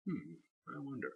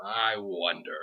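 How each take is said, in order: First: Much softer hummed wonder, said to himself; a soft, private hum of wonder; quiet musing. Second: Said in the usual way. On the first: Real, not acted. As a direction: trail off thinking aloud. Musing aloud about next week.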